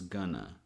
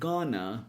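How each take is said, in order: First: The phrase is shortened with schwa vowels. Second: The phrase is said in its full form.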